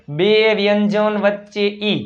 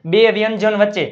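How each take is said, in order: First: બે વ્યંજન વચ્ચે ઈ slowly, each word stretched; slow, spelled-out repeat of બે વ્યંજન વચ્ચે ઈ; slow rule reminder. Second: Said in the usual way. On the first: Shown as a demonstration. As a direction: draw out બે and વચ્ચે so learners remember. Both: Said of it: "ઈનો ઉચ્ચાર યાદ કરો".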